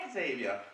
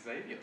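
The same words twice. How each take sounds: First: Xavier said ZAY-vee-uh with a Z; ZAY-vee-uh, Z at the front; X-initial pronunciation. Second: Xavier said AY-vee-uh with a rising tune; plain, insistent AY-vee-uh; correct pronunciation. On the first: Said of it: "with the X in front of him". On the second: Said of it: "so please stick with that one". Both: Shown as a demonstration.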